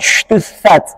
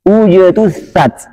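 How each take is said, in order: First: The j sounds soft, like sh. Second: The j sounds hard and voiced. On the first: The speaker calls it wrong. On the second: The speaker calls it right.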